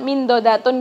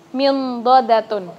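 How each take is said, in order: First: The n is said as a plain, clear n. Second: The n is hidden in a nasal sound before d. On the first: The speaker calls it wrong. "bukan min dodatun biasa gitu" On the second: The speaker calls it right. "kita beri haknya min dodatun"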